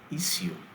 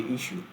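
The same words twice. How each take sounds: First: It is said with a foreign-sounding pronunciation. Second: It is said in an ordinary, native way. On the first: "when I want to, you know, sound foreign, I say issue" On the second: "personally, I just say issue"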